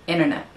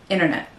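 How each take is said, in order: The two takes are said the same way.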